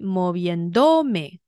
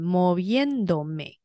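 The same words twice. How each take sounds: First: The stress is on the third syllable. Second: The stress is on the second syllable. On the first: The speaker calls it wrong. "重音在倒数第二音节，也就是会在do 这边，那它就会念成" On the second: The speaker calls it right. "才会是念成moviéndome"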